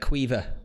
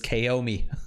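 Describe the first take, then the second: First: The name sounds like 'Kweeva', ending in 'va'. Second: The name sounds like 'Kaomi', ending in 'mi'. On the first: The speaker calls it right. "the one above is uh, Quiva" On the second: The speaker calls it wrong. "regularly will get pronounced as Kaomi"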